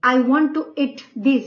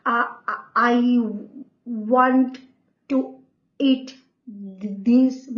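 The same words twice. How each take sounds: First: Said in the usual way. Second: Halting stammer with long gaps between words; stammering demo. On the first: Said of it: "जैसे कि मैं बोल रही हूँ कि". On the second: Shown as a demonstration. Teacher showing the class a stammer. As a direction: stammer through it, repeating I. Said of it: "तो मैं ऐसे बोलूंगी".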